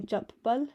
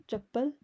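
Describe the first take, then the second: First: Chappal split as chap, then pal; split syllables. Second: Said in the usual way. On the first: Shown as a demonstration. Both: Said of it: "It's a bit like saying".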